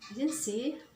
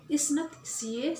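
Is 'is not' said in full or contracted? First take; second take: contracted; full. First: The words are contracted into isn't. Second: The words are said in full, is not. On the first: "Tapi kalau dia pengucapannya isn't she" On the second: "Atau is not she, seperti itu kalimatnya"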